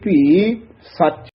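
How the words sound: A short pause separates the two words. The speaker calls it right. "ਇੱਥੇ ਥੋੜਾ ਜਿਹਾ ਠਹਿਰਾ ਦੇ ਕੇ ਫੇਰ ਨਖੇਰ ਕੇ ਬੋਲਣਾ ਹੈ ਸੱਚ"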